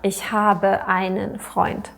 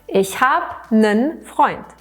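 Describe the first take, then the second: First: The article is said in full with two syllables. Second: The article is reduced to one short syllable.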